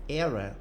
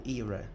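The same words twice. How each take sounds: First: "Era" with an open E, as in "air"; pronunciation query. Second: "era" with a long ee, like "ear-a"; alternative pronunciation. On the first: Teacher unsure how the English word is said, trying "Era" with open E. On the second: Teacher unsure how the English word is said, offering "era" as "ear-a". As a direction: say "era" starting like "ear", questioning. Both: Shown as a demonstration. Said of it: "Eu não sei como é que fala".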